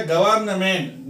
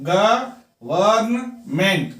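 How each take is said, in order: First: Said in the usual way. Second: गवर्नमेंट broken slowly into ग-वर्न-मेंट; syllable-by-syllable गवर्नमेंट in three beats. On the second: Shown as a demonstration. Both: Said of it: "तीन syllable है".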